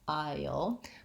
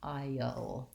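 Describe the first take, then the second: First: The vowels glide together without any break. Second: The vowels are split by a short break. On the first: The speaker calls it right. "otherwise it doesn't sound like I-o" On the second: The speaker calls it wrong. "I don't want to break like I did just there"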